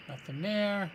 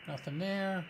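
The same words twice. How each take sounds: The two takes are said the same way.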